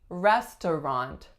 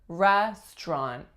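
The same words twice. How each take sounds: First: All three syllables are pronounced. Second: A syllable is dropped, leaving two. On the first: "looks like it should be restaurant" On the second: "it's really way more common to hear restaurant"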